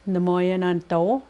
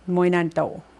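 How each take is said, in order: First: Every syllable of the phrase is spoken in full. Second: The syllables are run together into a shortened form.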